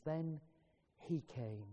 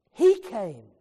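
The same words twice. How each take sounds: First: Zacht en laag: "Then he came" als een stille onthulling; hushed refrain. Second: "he came" plotseling luid uitgeroepen als hoogtepunt; sudden loud climax. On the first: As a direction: laat "Then he came" bijna fluisterend wegzakken. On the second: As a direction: breek uit op "he came", veel harder. Sermon refrain, climactic burst. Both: Acted.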